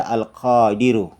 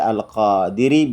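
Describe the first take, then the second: First: The word ends with a u vowel. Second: The word ends with an i vowel. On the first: "bisa dibaca Al-Qadiru" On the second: "bisa dibaca Al-Qadiri"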